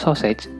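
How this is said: It is pronounced as an English word. "terapan dari bahasa Inggris"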